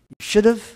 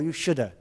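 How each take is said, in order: First: The word 'have' is said in full. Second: The word 'have' is reduced to a weak 'a'. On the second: "or you shoulda"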